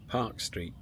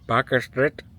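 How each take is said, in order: First: Park is said as one syllable. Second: Park is said as two syllables.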